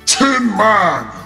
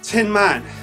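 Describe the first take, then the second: First: It is said in a grand, booming voice. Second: It is said in his ordinary voice.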